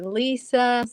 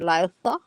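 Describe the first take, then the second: First: The middle consonant is a plain s sound. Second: The middle consonant is a lisped th sound. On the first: "Some people say Lisa" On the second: "if you go to Spain, they will say"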